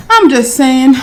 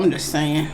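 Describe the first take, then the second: First: Louder, higher emphatic repeat. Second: Quiet, offhand aside; soft aside. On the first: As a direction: say it again with punch. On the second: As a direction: drop it low and offhand. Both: Real, not acted.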